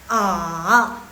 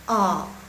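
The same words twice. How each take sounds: First: The pitch dips down and then rises again. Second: The pitch only falls and does not rise. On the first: "yang full"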